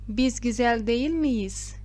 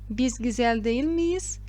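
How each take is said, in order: No difference in how they are said.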